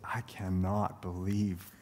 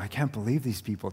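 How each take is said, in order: First: It sounds exasperated and disillusioned. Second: It sounds amazed and delighted.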